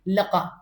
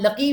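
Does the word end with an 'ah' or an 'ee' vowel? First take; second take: ah; ee. First: The word ends with an 'ah' vowel. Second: The word ends with an 'ee' vowel. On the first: "लका ज्यादातर आपको अरबी में लका कहेंगे" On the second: "हम लकी भी पढ़ सकते हैं"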